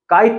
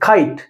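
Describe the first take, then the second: First: The k sound has no puff of air. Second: The k sound has a puff of air. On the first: The speaker calls it wrong. "काइट नहीं" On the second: The speaker calls it right. "क के पीछे थोड़ा ह की आवाज जुड़ी होती है"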